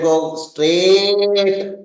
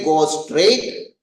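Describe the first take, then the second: First: The vowel in straight is held very long. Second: The vowel in straight is short. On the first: The distance to go is very long. "The third straight means very long" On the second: The distance to go is short. "the first straight means there is a short distance straight"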